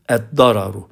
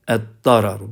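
First: The word starts with a doubled d sound. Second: The same.

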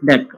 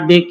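First: It is said as one syllable, deck. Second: It is said as two letters, dee-queue. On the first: The speaker calls it right. "it's pronounced as DEC" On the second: The speaker calls it wrong. "It's not DQ"

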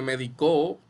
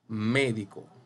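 First: The stress is on the last syllable. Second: The stress is on the first syllable. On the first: "Y también en la O" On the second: "usted puede marcarle la tilde aquí en la E"

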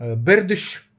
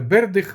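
First: The name ends in a 'sh' sound. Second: The name ends in a 'kh' sound.

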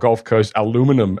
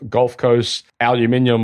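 First: The word is said the North American way. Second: The word is said the British way. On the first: The speaker calls it wrong. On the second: The speaker calls it right.

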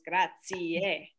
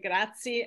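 First: The word is said with all syllables fully pronounced. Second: The word is said with fewer, clipped syllables. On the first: The speaker calls it right. "you always want to have the four syllables" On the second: The speaker calls it wrong. "a lot of Americans say grazie"

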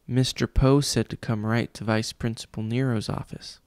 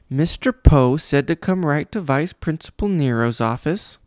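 First: It is spoken quietly in a low voice. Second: It is spoken in a high, shrieky voice. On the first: The line is said shyly. "Klaus said quietly" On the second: The line is mocked. "the man mimicked in a high, shrieky voice"

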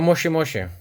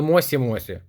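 First: The middle consonant is an sh sound. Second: The middle consonant is a plain s sound. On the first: The speaker calls it right. "а Моші-Моші" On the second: The speaker calls it wrong. "Не Мосі-Мосі"

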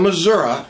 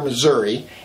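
First: It uses the southern, rural pronunciation of the name. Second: It uses the northern, city pronunciation of the name. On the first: It is how people in the south and the countryside say it. "Missouri in the southern and rural areas" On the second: It is how people in the north and the city say it. "common to hear Missouri in the northern and St. Louis areas"

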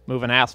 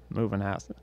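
First: It is said in an Australian accent. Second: It is said in an attempted British accent. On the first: "I can only do Australian" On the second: "I can't even do a British accent anymore"

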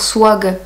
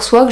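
First: The word is said slowly with heavy articulation. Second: The word is said quickly and plainly. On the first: "je vais dire swag" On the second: "je vais pas dire swag"

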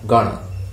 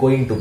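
First: The words are blended into one reduced form. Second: Both words are said fully and separately. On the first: This is how native speakers say it. "native speakers pronounce it as gonna" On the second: This is how speakers in Sri Lanka and India say it. "අපි Asians ලා ලංකාවේ ඉන්දියාව ගේ අපි මේක පාවිච්චි කරන්නේ going to කියලා"

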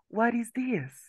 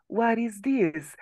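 First: The words are linked together into one run of sound. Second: The words are linked together into one run of sound.

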